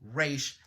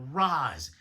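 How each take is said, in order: First: The word sounds like 'raish'. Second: The word sounds like 'rahz'. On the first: The speaker calls it right. "It's actually Raish Al Ghul" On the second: The speaker calls it wrong. "it's not Ra's"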